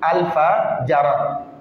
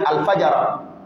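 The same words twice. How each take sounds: First: The two names are said apart with a pause. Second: The two names are said quickly, run together. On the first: "c'est deux noms collés" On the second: "quand tu dis rapidement, ça devient"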